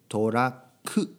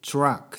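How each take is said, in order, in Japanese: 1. 最後ははっきりした母音で終わります。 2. 最後はkの音で終わります。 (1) "日本語だとちゃんとく" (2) "英語だとK の音で終わりますね"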